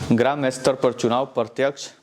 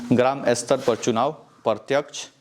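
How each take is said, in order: No difference in how they are said.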